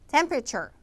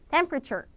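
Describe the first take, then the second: No difference in how they are said.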